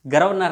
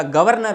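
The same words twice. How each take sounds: First: गर्वनर with the r before the v; mispronounced. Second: Said in the usual way. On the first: Shown as a demonstration. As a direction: say गर्वनर wrongly, r straight after "ga". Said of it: "गर्वनर नहीं होता". (गलत उच्चारण "गर्वनर", र पहले) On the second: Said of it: "गवर्नर होता है".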